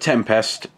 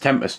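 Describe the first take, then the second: First: The word is broken into two separate parts. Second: The word is said smoothly as one unit. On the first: The speaker calls it wrong. "I don't know why I've just pronounced it Tempest" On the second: The speaker calls it right. "You just say it as one word"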